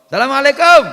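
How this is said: It sounds like a casual greeting between friends. A friend is being greeted. "Salam ketemu kanca"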